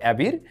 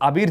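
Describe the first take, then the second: First: It is said with an English-style first vowel. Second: It is said like the common Bengali name. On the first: This is how the brand itself says it. "ওরা উচ্চারণ করে অ্যাবির" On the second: This is the local personal name. "Bangladeshi আবির যে নামটা রয়েছে"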